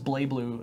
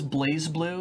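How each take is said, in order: First: The first word has no z sound. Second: The first word ends with a z sound. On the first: The speaker calls it right. "you're not supposed to pronounce the Z" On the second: The speaker calls it wrong. "I thought it was Blaze Blue"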